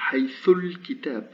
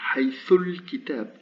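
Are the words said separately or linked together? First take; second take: linked; linked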